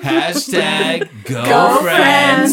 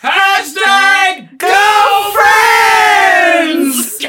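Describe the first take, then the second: First: It is said at the quietest level. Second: It is said at the loudest level.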